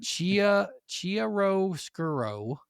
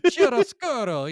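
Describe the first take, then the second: First: Halting, drawn-out attempt at "chiaroscuro"; butchered Italian. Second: Loud, high, hammed-up Italian accent; bad Italian accent. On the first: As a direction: stumble slowly through "chiaroscuro", raised and uncertain. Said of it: "fucking butcher this". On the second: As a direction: belt out "chiaroscuro" like a cartoon Italian. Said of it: "the shitty Italian accent". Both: Shown as a demonstration.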